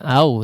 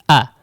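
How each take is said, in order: First: The vowel glides into a w sound. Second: The vowel is clear and cut short. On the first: The speaker calls it wrong. "enggak au ya" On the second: The speaker calls it right. "tapi a. Betul-betul terdengar jelas ya"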